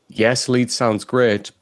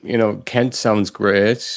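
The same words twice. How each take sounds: First: Falling sure tune on great; decided and certain, ending firmly down; confident statement. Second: Rising unsure tune on Kent; uncertain, trailing upward like a question mark. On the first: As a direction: say "lead sounds great" as a settled fact, voice dropping on "great". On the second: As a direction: say "Kent sounds great" as a doubtful question, lifting on "Kent". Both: Shown as a demonstration. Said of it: "question mark".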